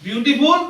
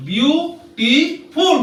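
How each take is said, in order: First: Said in the usual way. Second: "বিউটিফুল" slowly, as three parts, বিউ-টি-ফুল; split into syllables. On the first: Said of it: "তাহলে এটা কটা syllable ভাগ আছে?". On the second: Shown as a demonstration. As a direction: break "বিউটিফুল" into three drawn-out, higher syllables. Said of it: "syllable ভাগ আছে".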